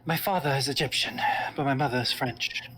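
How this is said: It is spoken with a British accent.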